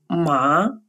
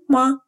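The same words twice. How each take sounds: First: The pitch rises upward. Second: The syllable is short, light and unstressed. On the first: It means hemp. "со вторым тоном" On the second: It is a question particle. "с легким нулевым тоном"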